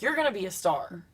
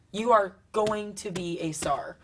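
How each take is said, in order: First: Said in the usual way. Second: "are" stressed, slower and firm; emphatic promise. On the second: Retold or imitated. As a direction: say "are" firmly, promising her. Mentor JT encouraging.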